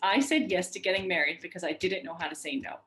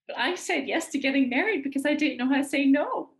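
First: It is said in a confident voice. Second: It is said in a whiny voice.

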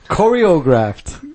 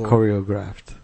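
First: The O sound is strongly emphasized. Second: The O sound is only lightly emphasized. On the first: The speaker calls it wrong. "you kind of emphasize too much on the O" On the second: The speaker calls it right. "Like that? Yeah, just choreographed"

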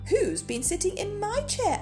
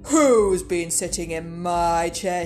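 First: It is said in a medium-pitched voice. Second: It is said in a deep, gruff voice.

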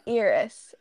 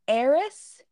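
First: The first vowel sounds like a hard 'ee'. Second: The first vowel sounds like 'air'. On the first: The speaker calls it wrong. "instead of Eris, which is how I always pronounced it because it's an E" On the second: The speaker calls it right. "It's supposed to be Eris with an A"

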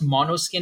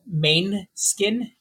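First: The name begins with a 'mono' sound. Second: The name begins with a 'main' sound. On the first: The speaker calls it right. "I think it's supposed to be pronounced Monoskin" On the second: The speaker calls it wrong. "I read it as"

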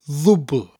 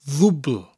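No difference in how they are said.

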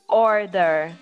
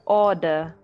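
First: It is said in an American accent. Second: It is said in a British-sounding accent. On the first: "Instead of saying like American style" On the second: "You would say order"

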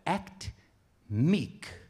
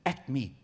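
First: The phrase is said slowly and deliberately. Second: The phrase is said at a normal, quicker pace.

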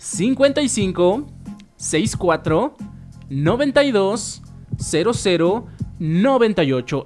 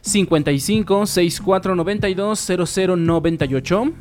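First: The number is said slowly. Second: The number is said fast.

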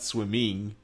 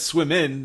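First: The word ends in a full ng sound. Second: The word ends in a plain n sound. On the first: The speaker calls it wrong. "not swimming" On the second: The speaker calls it right. "it's swim in"

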